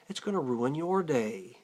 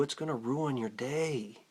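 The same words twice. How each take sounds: First: "your" stressed, said fuller and stronger. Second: Said in the usual way. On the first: Retold or imitated. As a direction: lean on "your" to turn it back on him. Contrast of my day, your day.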